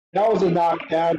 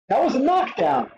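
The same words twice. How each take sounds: First: Said in the usual way. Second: WAS pushed high, insisting it counts. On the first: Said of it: "Did War just get a knockdown there?". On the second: Real, not acted. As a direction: lean hard on WAS, higher.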